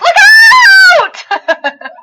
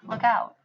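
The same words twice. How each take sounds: First: It is said urgently and loudly. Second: It is said calmly and flatly.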